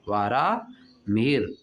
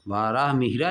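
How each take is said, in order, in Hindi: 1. नाम व्यंजन पर खत्म होता है, उसके बाद कोई स्वर नहीं है। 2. नाम के अंत में एक अतिरिक्त 'a' स्वर जोड़ा गया है। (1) "वाराह मिहिर नाम क्या होता है?" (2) "वाराह मिहिरा लिखा है।"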